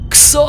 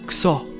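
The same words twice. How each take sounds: First: It is screamed loudly and stretched out long. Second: It is said at normal volume and length.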